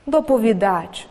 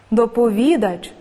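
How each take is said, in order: First: Доповідач with the stress on дач; доповідач pronounced do-po-vi-DACH; stress on last syllable. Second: Доповідач with the stress on ві; Доповідач pronounced do-po-VI-dach; stress on third syllable. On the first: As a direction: save the weight for the final syllable of доповідач. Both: Shown as a demonstration. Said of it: "Слова із подвійним наголосом".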